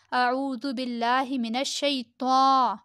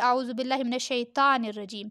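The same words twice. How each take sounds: First: Slow recitation, "الشیطان" ending in rounded "taw"; correct heavy t. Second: "الشیطان" with a thin open "taan"; common careless way. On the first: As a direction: stretch a full heavy t in "الشیطان". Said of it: "تا ہوتا ہے". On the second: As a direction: recite it in passing, light t in "الشیطان". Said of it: "ہم کیا بولتے ہیں؟". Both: Shown as a demonstration.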